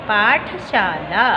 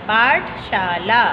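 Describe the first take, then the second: The two takes are said the same way.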